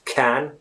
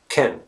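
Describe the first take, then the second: First: The vowel is a full, clear vowel. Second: The vowel is reduced to a weak schwa. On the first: The speaker calls it wrong. "it's not pronounced can" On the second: The speaker calls it right. "It's very unstressed. It's not stressed at all. So it's can"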